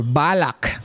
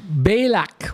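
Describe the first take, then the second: First: Balak as "BAH-lak"; alternative pronunciation. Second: Balak as "BAY-lak"; first pronunciation. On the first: Preacher offering congregation the other version, alternative pronunciation. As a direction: say Balak with an open "bah" first syllable. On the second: Preacher offering congregation one version of the name, first pronunciation. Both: Shown as a demonstration. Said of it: "or Balak".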